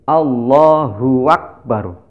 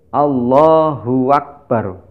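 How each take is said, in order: The two takes are said the same way.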